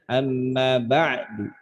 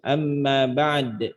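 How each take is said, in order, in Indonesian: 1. Vokal akhirnya diucapkan samar. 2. Bunyi akhirnya berupa konsonan pantul. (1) "dibaca dengan raum, maka du-nya dibaca dikit aja" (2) "Kalau dengan cara diisyaratkan, maka dal qalqalahnya ngikut juga"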